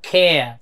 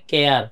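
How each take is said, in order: First: খেয়া with aspirated kh, gliding to uh, no r; native English pronunciation. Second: কেয়ার with a plain k and a sounded final r; local pronunciation. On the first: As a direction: draw out খেয়া and drop the final r. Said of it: "ওরা উচ্চারণ করে". (খেয়া টেনে, খ দিয়ে, র ছাড়া) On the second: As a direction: say কেয়ার the Bangladeshi way, r pronounced. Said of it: "আমরা বলি". (কেয়ার, শেষে র স্পষ্ট) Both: Shown as a demonstration.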